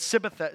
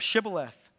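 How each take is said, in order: First: It begins with a plain s sound. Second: It begins with an sh sound.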